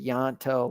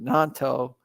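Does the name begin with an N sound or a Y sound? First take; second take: Y sound; N sound. First: The name begins with a Y sound. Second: The name begins with an N sound. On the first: The speaker calls it wrong. "I always mispronounce his name. I want to say Yanto" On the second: The speaker calls it right. "but Nanto"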